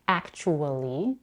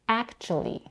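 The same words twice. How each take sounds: First: The word is said with four syllables. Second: The word is said with three syllables. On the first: "as a four-syllable word" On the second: "or as a three-syllable word"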